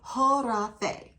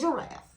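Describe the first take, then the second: First: The word begins with an H sound. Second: The word begins with a G sound. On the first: "we don't pronounce the G because it's luxury" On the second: "Harafe is a giraffe"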